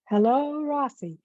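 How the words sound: The greeting sounds bright and happy. "in a happy tone, like I would say"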